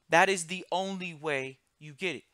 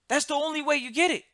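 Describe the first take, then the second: First: It is said slowly. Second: It is said at a normal speed.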